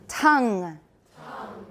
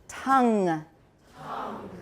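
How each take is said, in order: No difference in how they are said.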